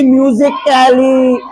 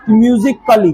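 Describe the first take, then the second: First: "कैली" drawn out with a sounded "ai"; wrong pronunciation. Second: "म्यूजिकली" ending in a short "klee"; silent A. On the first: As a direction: say "कैली" separately, its A fully voiced. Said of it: "यहाँ नहीं पढ़ेंगे". ("कैली" में ऐ को खींचकर, गलत उच्चारण) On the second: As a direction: glide over the A in "म्यूजिकली", no "ai". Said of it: "यह silent रहेगा". ("म्यूजिकली" में ए साइलेंट, छोटा "कली") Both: Shown as a demonstration.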